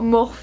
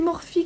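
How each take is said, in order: First: The name is pronounced with a French accent. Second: The name is pronounced with an English accent. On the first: The speaker calls it wrong. "À la française quoi" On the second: The speaker calls it right. "mais non c'est Morphe que ça se dit"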